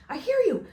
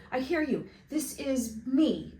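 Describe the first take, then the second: First: High, loud burst of relief; excited relief. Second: A little higher, slower, eager; calm down and confirm contact; eager reply. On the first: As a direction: blurt it out as contact comes. Boy answers radio excitedly. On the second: Boy answers radio. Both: Acted.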